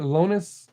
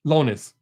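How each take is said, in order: First: Lonis tried with a questioning rise; name tryout. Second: Lonis said firmly, falling; name settled. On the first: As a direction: test the name Lonis, rising. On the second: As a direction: settle on Lonis with a final fall. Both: Shown as a demonstration. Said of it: "Is that how you say it?".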